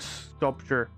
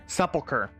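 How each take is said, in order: First: The word comes out sounding like sculpture. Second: The word comes out sounding like sepulcher. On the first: The speaker calls it wrong. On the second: The speaker calls it right.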